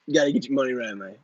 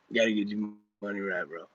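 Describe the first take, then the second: First: Lightly voiced pep-talk guru, a hint of swagger; Grant impression. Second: Lower, softer, fast aside in a light guru voice; Grant impression, muttered. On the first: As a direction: toss off a mild Grant-style money lecture. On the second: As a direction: mutter the money lecture quickly under your breath. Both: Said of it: "that was my Grant impression".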